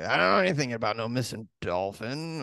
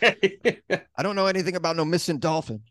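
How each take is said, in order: First: It is said in a creepy way. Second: It is said in a plain, ordinary way.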